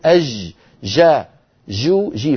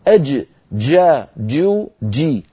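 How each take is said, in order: First: The j is soft and continuous from the start. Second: The j starts with a full closure and release. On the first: This is the colloquial regional pronunciation. The speaker calls it wrong. "نحن في العامية نقول أج جا جو جي، فننطقها رخوة من بدايتها" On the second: This is the classical standard pronunciation. The speaker calls it right. "هكذا الجيم الفصيحة بدايتها انقفال ونهايتها انفتاح"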